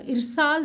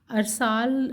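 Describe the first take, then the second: First: "ارسال" with a short i first, ir-saal; correct pronunciation. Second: "ارسال" with a short a first, ar-saal; common mispronunciation. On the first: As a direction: open "ارسال" on i: irsaal. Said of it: "صحیح ہے". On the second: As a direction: open "ارسال" on a: arsaal. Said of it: "درست ادائیگی نہیں ہے". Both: Shown as a demonstration.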